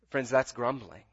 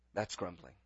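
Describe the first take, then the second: First: Said in the usual way. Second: Much softer, lower repeat; quiet echo. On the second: Real, not acted. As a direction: let the verdict sink in quietly. Preacher repeats verdict, softer.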